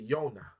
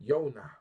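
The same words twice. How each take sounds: First: The name starts with a Y sound. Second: The name starts with a Y sound.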